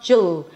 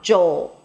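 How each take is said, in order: First: The L follows directly without an 'o' glide. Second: An 'o' glide is heard before a dark L. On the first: The speaker calls it wrong. "It's not Jul" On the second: The speaker calls it right. "as if there is an O sound right before the L"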